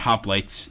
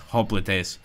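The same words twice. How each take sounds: First: The word is pronounced the anglicized English way. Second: The word is pronounced a non-anglicized way. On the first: The speaker calls it wrong. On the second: The speaker calls it right.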